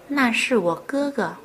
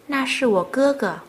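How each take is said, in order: No difference in how they are said.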